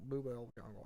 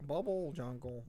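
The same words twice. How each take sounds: First: "Bubble" said as "moo-BELL" or "boo-BELL"; alternative pronunciation. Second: Said in the usual way. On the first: Shown as a demonstration. Co-host unsure of the name, "Bubble" said like "boo-bell". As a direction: say "Bubble" with an "oo" and an "-ell" ending. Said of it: "don't know if you pronounce this". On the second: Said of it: "if you pronounce this bubble".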